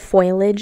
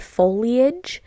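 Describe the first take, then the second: First: The word has two syllables, like 'foil-age'. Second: The word has three syllables, with a clear 'li'. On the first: The speaker calls it wrong. "the only reason I said foliage" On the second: The speaker calls it right. "I meant to say foliage"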